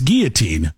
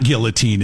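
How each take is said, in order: First: Put-on guillotine with silent L's, "GEE-uh-teen"; correct pronunciation. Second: Put-on guillotine with a sounded L, "GILL-uh-teen"; wrong pronunciation. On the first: Host correcting himself for listeners, guillotine as GEE-uh-teen. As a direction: drop the l from guillotine, hard g. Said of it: "it's guillotine". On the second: Host rejecting the wrong version, guillotine as GILL-uh-teen. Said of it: "it's not guillotine". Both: Shown as a demonstration.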